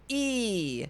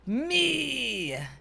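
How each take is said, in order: First: The voice is clear with no grit. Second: The voice is rough with added grit.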